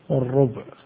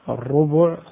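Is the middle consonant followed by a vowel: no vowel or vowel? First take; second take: no vowel; vowel. First: The middle consonant is followed by no vowel. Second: The middle consonant is followed by a short u vowel. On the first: "والسكون" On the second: "بالضم"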